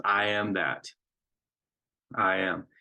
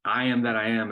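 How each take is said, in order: First: "I am that" then a long pause before "I am"; pause after that. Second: "I am that I am" run together in one breath; no pause. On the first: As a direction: hold a full beat after "that" before saying "I am". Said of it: "important to make that pause there". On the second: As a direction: say "I am that I am" straight through without stopping. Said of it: "what I've heard my whole life as a kid". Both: Shown as a demonstration.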